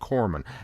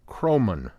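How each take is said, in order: First: The name begins with the sound 'cor'. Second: The name begins with the sound 'crow'. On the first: The speaker calls it wrong. "I've flipped the O and the R" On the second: The speaker calls it right. "Crowman, not Corman"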